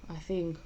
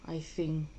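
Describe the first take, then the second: No difference in how they are said.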